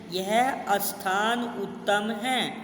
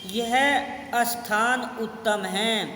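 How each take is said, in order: No difference in how they are said.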